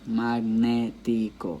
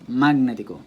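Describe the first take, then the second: First: The stress is on the syllable ne. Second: The stress is not on the syllable ne. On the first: The speaker calls it right. "It's on ne" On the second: The speaker calls it wrong. "It's not like that"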